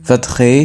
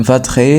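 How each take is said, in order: The two takes are said the same way.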